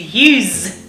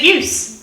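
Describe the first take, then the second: First: The word ends in a voiced buzzing sound. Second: The word ends in a voiceless hissing sound. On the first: It is used as a verb. "but to use" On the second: It is used as a noun. "word final sounds change from voiceless to voiced fricatives"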